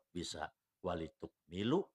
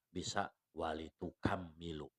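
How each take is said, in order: First: The m is short, with no extra syllable. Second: The m is doubled, with an added syllable before it. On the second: "wat tasydidi"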